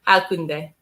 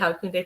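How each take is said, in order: First: The word is said slowly and broken up. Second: The word is said quickly and run together. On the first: "say it very slowly" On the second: "you're saying it quickly"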